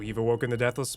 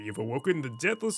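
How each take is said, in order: First: It is said in the speaker's normal voice. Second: It is said in a put-on character voice. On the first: The narrator is speaking, not the character. The speaker calls it wrong. "This is, um, not the Scythian speaking" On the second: The character is speaking. The speaker calls it right. "I gotta do a voice"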